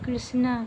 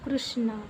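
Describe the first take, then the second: First: The first syllable has an 'ri' vowel sound. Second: The first syllable has an 'ru' vowel sound. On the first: This is how it is said in Bihar and Delhi. "Bihar और दिल्ली में कृष्णा करते हैं" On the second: This is how it is said in Odisha and Maharashtra. "Orissa, Maharashtra में कृष्णा करते हैं"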